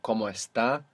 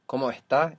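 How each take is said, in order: First: The S is pronounced as a full hiss. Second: The S is aspirated, like a breathy h.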